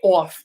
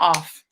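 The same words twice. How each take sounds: First: The vowel is a drawn-out New York 'aw' sound. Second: The vowel is a plain, short general American sound. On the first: "If you're from New York, you say off" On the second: "not off"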